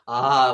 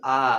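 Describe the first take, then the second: First: Loud, gaping आ, mouth stretched too far; overdone wide आ. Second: आ with a moderately open mouth; medium-open आ. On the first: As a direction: overdo आ as a how-not-to example. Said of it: "अब ऐसे नहीं बोल देना". (मुंह बहुत ज़्यादा फाड़कर ज़ोर से आ) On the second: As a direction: say आ openly but without gaping. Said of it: "आ बोल रहा हूँ तो ये मीडियम में है". (मध्यम खुले मुंह से सहज आ) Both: Shown as a demonstration.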